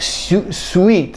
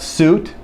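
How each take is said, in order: First: Each vowel letter gets its own separate sound. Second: The vowels merge into one long oo sound. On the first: The speaker calls it wrong. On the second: The speaker calls it right.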